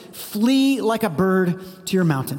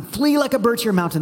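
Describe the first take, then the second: First: Slow, weighty reading of the verse; solemn scripture read, unhurried; slow dramatic read. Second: Said in the usual way. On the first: Shown as a demonstration. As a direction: draw out Flee like a bird to your mountain. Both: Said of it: "It starts with".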